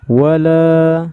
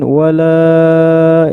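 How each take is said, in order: First: The final vowel is held for two beats. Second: The final vowel is stretched out well beyond two beats. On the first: The speaker calls it right. "Cara bacanya wala, cukup. ... Ini cuma dua harokat" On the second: The speaker calls it wrong. "jangan dipanjangin wala, itu salah ya"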